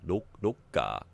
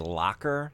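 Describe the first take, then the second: First: It is said with a Japanese pronunciation. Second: It is said with an English pronunciation. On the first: The speaker calls it right. "It's not laka, loka" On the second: The speaker calls it wrong. "I want to say locker"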